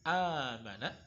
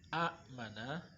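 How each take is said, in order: First: The first vowel is lengthened with no stop. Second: A glottal stop follows the short first vowel. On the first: The speaker calls it right. "lebih mudah diucapkan" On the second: The speaker calls it wrong. "daripada kita mengucapkan"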